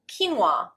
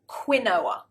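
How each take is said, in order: First: It uses the original pronunciation. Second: It uses the common British pronunciation. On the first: The speaker calls it right. "the actual pronunciation is quinoa" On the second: The speaker calls it wrong. "British people often pronounce this word quinoa. It's not"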